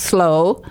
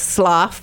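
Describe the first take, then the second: First: The word sounds like 'slow'. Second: The word does not sound like 'slow'. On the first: The speaker calls it right. "is actually pronounced slow" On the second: The speaker calls it wrong. "what we would pronounce Slough"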